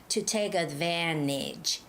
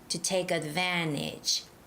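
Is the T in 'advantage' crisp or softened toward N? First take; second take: softened; softened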